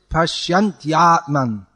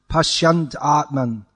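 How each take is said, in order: First: A y sound is heard before the second word. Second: The y sound before the second word is missing. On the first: The speaker calls it right. "the ya has to come" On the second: The speaker calls it wrong. "leaving out the ya sound altogether"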